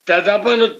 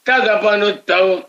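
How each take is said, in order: First: The word ends in a short 'a' sound. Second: The word ends in an 'au' sound. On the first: The speaker calls it wrong. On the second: The speaker calls it right.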